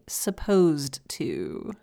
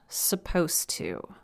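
First: Each sound in the words is said clearly. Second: The words are run together and reduced.

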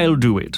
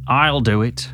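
First: It is said in a posh accent. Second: It is said in a Scouse accent.

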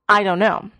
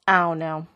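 First: Each word is said fully and clearly. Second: The words blur into one slurred sound. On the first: "we would oftentimes not actually say this" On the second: "but say something more like"

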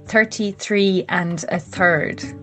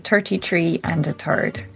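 First: The th sounds are said as a true th. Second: The th sounds are said like a t. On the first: "I have to concentrate when I say that" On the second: "if I say it naturally in Irish English"

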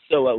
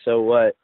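First: It is said as a forceful exclamation. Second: It is said as a rising question.

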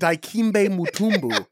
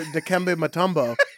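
First: The name is said with exaggerated, overdone pronunciation. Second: The name is said plainly, without exaggeration.

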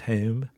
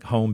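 First: The long O sounds like a Philly accent. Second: The long O sounds like standard English.

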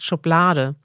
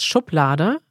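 First: The stress is not on the first syllable. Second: The stress is on the first syllable. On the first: The speaker calls it wrong. "er spricht es polnisch aus" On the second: The speaker calls it right. "Betonung auf der ersten Silbe"

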